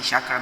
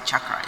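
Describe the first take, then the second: First: The word is said with a French-sounding pronunciation. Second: The word is said with a Sanskrit-style pronunciation. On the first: The speaker calls it wrong. "the person who started saying chakra ... They wanted to sound French" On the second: The speaker calls it right. "it's hard to say chakra ... It's a Sanskrit word. Say it correctly"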